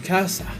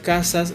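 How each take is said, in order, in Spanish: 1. La s final se aspira como una h. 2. La s final se pronuncia como s. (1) "suele aspirarse la S final de sílaba, usualmente se cambia por una H" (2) "la palabra casas"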